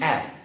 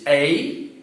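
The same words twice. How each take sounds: First: The letter is said as its short sound. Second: The letter is said as its alphabet name. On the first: "the phonetic sound is A" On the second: "the name of the letter is A B C"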